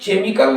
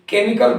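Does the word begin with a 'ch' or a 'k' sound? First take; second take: ch; k. First: The word begins with a 'ch' sound. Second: The word begins with a 'k' sound. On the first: The speaker calls it wrong. "केमिकल न कह के" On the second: The speaker calls it right. "सी एच का उच्चारण च न करके का करते हैं"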